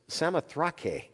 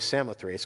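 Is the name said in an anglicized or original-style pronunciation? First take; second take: original; anglicized. First: The name is said in its original-style pronunciation. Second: The name is said in an anglicized pronunciation. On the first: "if you look up the word, it's Samothrake. You know, weird pronunciation" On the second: "I'm going to say Samothrace because that's what it looks like, anglicized"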